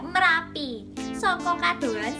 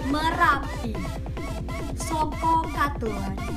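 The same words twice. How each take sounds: First: The voice is thin and shrill. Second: The voice is full, from the chest or belly. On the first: The speaker calls it wrong. "jadi nggak cempreng, nggak" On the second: The speaker calls it right. "Nah suaranya begitu"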